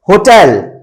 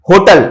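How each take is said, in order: First: "होटल" ending in a full -el; English pronunciation. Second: "होटल" with a weak last vowel; short, reduced ending on "होटल"; everyday wrong pronunciation. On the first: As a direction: say "होटल" as ho-TELL. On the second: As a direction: say "होटल" as HO-tul. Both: Shown as a demonstration. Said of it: "होटल बोलते हुए देखोगे".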